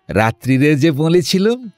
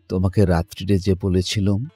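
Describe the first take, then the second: First: It mockingly imitates the daughter's voice. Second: It is said plainly in the daughter's voice.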